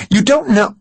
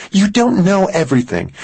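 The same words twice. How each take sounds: First: "don't" higher and louder, rising to a cry; stress on don't, higher. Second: "don't" pitched high and leaned on; stress on don't. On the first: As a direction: push "don't" up, near a cry. Mary repeats, more upset. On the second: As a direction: hit "don't" hard, high and upset. Mary rebukes Max. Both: Acted.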